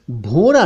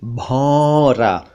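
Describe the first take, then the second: First: भौरा with close rounded "o"; short "oh" in भौरा; mispronounced भौरा. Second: भौरा slowly with open "au"; long drawn "aw" in भौरा; correct भौरा. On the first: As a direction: say भौरा wrongly as "bhora". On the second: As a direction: say भौरा as "bhaura". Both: Shown as a demonstration. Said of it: "भौरा नहीं".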